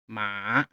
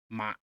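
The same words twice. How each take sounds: First: The pitch dips down then rises again. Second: The pitch falls sharply downward. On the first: "goes down and up" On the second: "you pull your voice down"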